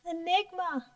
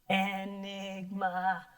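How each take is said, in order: First: It is said in a high-pitched voice. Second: It is said in a mysterious voice.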